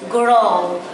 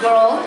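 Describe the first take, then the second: First: The word is said with a clear R sound. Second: The word is said without an R sound. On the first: "I had to really pronounce the R's" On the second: "We would pronounce girl"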